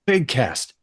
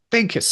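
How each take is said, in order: First: Said in the usual way. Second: Big cast, said much higher for effect; high emphatic repeat. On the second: Real, not acted. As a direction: pitch it way up on the repeat.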